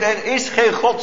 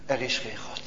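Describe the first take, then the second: First: Lightly voiced scoffer, a touch higher on geen; hint of a taunting inner voice; mocking inner voice. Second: Much softer, lower, stress on er, falling away; a quiet heavy echo of the doubt; hushed, falling. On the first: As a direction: state it like a doubter's sneer. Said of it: "zeggen ze van binnen". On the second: Acted. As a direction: let the words sink to near silence. Preacher repeats doubt, hushed.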